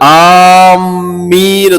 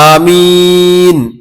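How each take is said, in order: First: The m sound is doubled and held longer. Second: The first vowel is short and the m single. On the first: It means 'those heading toward' something. The speaker calls it wrong. "മീമിന് ഷദ്ദ് കൊടുത്തുകൊണ്ട് ആമീൻ പറയാറുണ്ട്. യഥാർത്ഥത്തിൽ അത് അറബി ഭാഷ നിയമപ്രകാരം തെറ്റാണത്" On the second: It means 'O Allah, answer.' The speaker calls it right. "അലിഫിന്റെ നീളം കുറച്ചുകൊണ്ട് ആമീൻ എന്ന് പറയാം"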